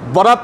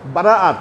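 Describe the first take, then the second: First: It is said short, as two syllables. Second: It is said long, as three syllables. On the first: The speaker calls it wrong. "বরাত না" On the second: The speaker calls it right. "বারাত শব্দটা কিন্তু আরবি শব্দ"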